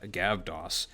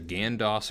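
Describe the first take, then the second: First: A v sound comes before the d. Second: An n sound comes before the d. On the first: The name is read the English way. "in our way" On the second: The name is read the Greek way. "in Greek, their letter that looks like our letter V, it makes the N sound"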